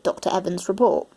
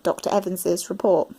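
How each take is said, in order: First: The name ends in a plain z sound. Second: The name ends with an extra iz syllable. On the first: "for those who pronounce it Doctor Evans' report" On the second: "for those who pronounce it Doctor Evans's report"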